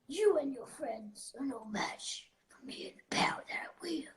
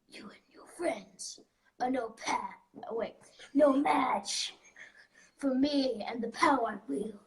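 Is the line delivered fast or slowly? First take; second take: fast; slowly. First: The line is delivered at a faster pace. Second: The line is delivered slowly and intentionally.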